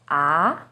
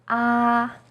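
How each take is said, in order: First: The pitch starts lower and rises. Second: The pitch stays high and level. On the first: "starts with a little lower pitch and goes up" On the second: "First tone, 一声, is high and steady"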